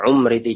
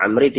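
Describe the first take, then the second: First: The name begins with a u vowel. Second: The name begins with an a vowel. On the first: "ada yang membaca dhammah" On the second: "Dibaca ada fathah"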